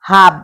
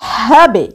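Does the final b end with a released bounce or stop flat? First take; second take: flat; bounced. First: The final b stops flat without a bounce. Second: The final b is released with a bounce. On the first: The speaker calls it wrong. "হাব বললে ভুল হয়ে যাবে" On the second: The speaker calls it right. "কলকলা হরফটি নিচের দিকে ধাক্কা দিয়ে পড়তে হবে"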